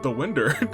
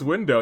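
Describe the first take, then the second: First: The word ends with an 'er' sound. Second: The word ends with an 'oh' sound. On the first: The speaker calls it wrong. "You you you said the winder" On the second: The speaker calls it right. "It's window"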